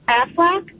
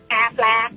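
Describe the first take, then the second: First: It is said in a normal speaking voice. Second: It is said in a quacking duck voice.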